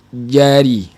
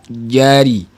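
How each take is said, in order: The two takes are said the same way.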